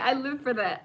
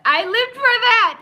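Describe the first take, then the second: First: Said in the usual way. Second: High, loud, delighted cry; gleeful shout. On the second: Real, not acted. Host relishing the show's fight scene, gleeful shout. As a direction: belt it out with pure glee. Repeats line, second much louder.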